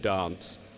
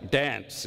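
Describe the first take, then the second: First: The vowel is a long, broad British 'ah'. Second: The vowel is a short, flat Australian 'a'. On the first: "B B C English" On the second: "Channel nine Australian"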